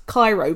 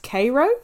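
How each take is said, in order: First: Cairo said KY-roh, like the Egyptian capital; Cairo as spelt. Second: Cairo said KAY-roh; local pronunciation of Cairo. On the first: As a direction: say Cairo with an "eye" vowel. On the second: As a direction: say Cairo with a long "ay" vowel, as in "day". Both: Shown as a demonstration. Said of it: "it's, it's pronounced Cairo".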